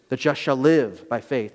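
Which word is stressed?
live. The stress is on "live".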